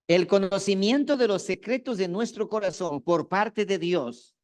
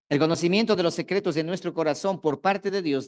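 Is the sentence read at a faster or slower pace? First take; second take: slower; faster. First: The sentence is read at a slower pace. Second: The sentence is read at a normal pace.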